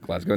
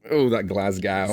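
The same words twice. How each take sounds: First: "Glasgow" said quickly and quietly, ending in "go"; the local "Glasgow", soft and short; Scottish pronunciation. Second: "Glasgow" drawn out slowly with an American "gow" like "cow"; mocking the mispronunciation. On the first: Shown as a demonstration. Guest confirming how locals say it, short and soft. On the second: Scottish guest teasing the host's pronunciation, slow mock echo. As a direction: echo her "Glasgow" back, slow and amused. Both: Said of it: "Sorry, Glasgow".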